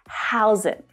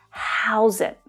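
First: The two words are linked together. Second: The same.

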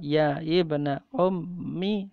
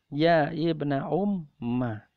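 First: The last word ends with an 'i' vowel. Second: The last word ends with an 'a' vowel. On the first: "baca kasrah" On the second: "Baca dengan patah"

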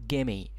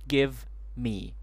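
First: The two words blend into one word. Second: Two separate words are clearly pronounced.

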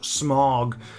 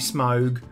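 First: The vowel is a single blended sound. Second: The vowel is a gliding diphthong. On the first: The speaker calls it wrong. "and not Smaug" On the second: The speaker calls it right. "Technically, it should be Smaug"

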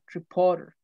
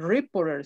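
First: The stress is on the middle syllable. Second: The stress is not on the middle syllable. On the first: The speaker calls it right. "sino reporter" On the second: The speaker calls it wrong. "no se dice reporter"

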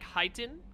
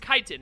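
First: The word begins with a 'ch' sound. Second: The word begins with a 'k' sound. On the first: The speaker calls it wrong. "the CH isn't pronounced as like chit" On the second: The speaker calls it right. "It's pronounced like just a K"

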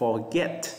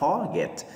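First: The stress is on the second syllable. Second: The stress is on the first syllable.

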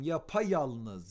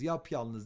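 First: A vowel is heard between yap and yalnız. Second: No vowel is heard between yap and yalnız. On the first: The speaker calls it right. "Yapayalnız ünlü türemesi" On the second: The speaker calls it wrong.

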